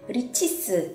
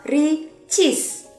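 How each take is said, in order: First: It ends with an added vowel sound. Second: It ends on a bare consonant sound. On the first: The speaker calls it right. "kamu harus tambahin E di belakangnya" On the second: The speaker calls it wrong. "nggak bisa Ricis"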